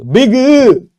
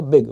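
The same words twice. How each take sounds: First: बिग stretched out high and very loud; wrong drawn-out pronunciation. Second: Said in the usual way. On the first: Shown as a demonstration. Teacher showing what cannot happen, बिग exaggerated into a high, loud stretch. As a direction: shout बिग with an overlong, high tail. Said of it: "ये नहीं हो सकता है". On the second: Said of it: "एक बार में कह दिया".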